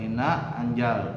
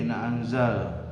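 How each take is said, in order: First: The consonant is pronounced as a j sound. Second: The consonant is pronounced as a z sound. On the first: The speaker calls it wrong. "Ada kadang yang za-nya dibaca ja, salah ya" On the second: The speaker calls it right. "Gigi sama gigi ditekan. Za. Nah, itu yang benar ya"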